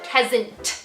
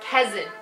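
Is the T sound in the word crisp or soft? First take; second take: crisp; soft. First: The T is crisp and overpronounced. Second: The T is soft and relaxed. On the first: This sounds unnatural. The speaker calls it wrong. "than if you said kesant" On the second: This sounds natural. The speaker calls it right. "Just because your T isn't as pronounced, it's going to sound a shit ton more natural"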